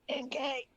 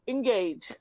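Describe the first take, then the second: First: It is said in a raspy, hoarse voice. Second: It is said in a clear, smiling voice.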